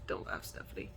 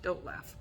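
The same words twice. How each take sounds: First: Low, soft whisper, holding back a laugh; breathy pained plea. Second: Said in the usual way. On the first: Real, not acted. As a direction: whisper it, hurting, trying not to laugh.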